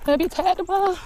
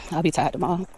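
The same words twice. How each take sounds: First: Playful high voice. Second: Said in the usual way. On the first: Pretend. Walker after a long walk, playful high voice. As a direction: pitch it way up in mock complaint. Repeats it in squeaky voice.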